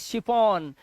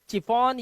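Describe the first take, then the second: First: The word begins with a sh sound. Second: The word begins with a ch sound. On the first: The speaker calls it right. "इसे पढ़ेंगे शिफॉन" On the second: The speaker calls it wrong. "इसे चिफॉन या किफॉन नहीं"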